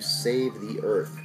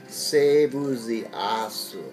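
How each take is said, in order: First: It is said in plain English pronunciation. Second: It is said with a Japanese accent.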